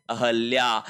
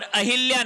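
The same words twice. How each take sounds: First: अहल्या with short a after h; correct pronunciation. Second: अहिल्या with short i after h; wrong pronunciation. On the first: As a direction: say अहल्या slowly and lower as "a-hal-ya". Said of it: "शब्द होता है". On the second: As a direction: say अहिल्या as "a-hil-ya". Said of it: "नहीं होता है". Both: Shown as a demonstration.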